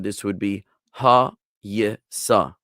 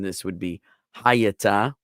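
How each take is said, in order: First: The last consonant is an s sound. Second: Every vowel is said, ending in a t sound.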